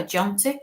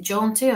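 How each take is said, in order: First: JONTY with a short, open O; second pronunciation of Jonty. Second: JONTY with a longer, rounder O; first pronunciation of Jonty. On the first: Medium offering the other version, Jonty with short O. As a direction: say Jonty as "JON-tee", the O kept short. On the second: Medium checking the name she got, Jonty with long O. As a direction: say Jonty as "JOHN-tee" with the O drawn out. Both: Shown as a demonstration. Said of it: "is it Jonty or Jonty".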